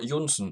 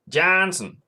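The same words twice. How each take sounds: First: It is said with a Norwegian pronunciation. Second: It is said with an English pronunciation.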